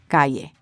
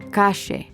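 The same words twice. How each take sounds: First: The double L is pronounced as a y sound. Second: The double L is pronounced as a sh sound. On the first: "instead of ayer or calle" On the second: "with a sh sound, as in ayer or calle"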